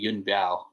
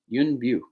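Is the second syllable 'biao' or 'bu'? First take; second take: biao; bu. First: The second syllable sounds like 'biao'. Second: The second syllable sounds like 'bu'. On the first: The speaker calls it wrong. "for so long, calling Yun Bu Yun Biao" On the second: The speaker calls it right. "It's Bu"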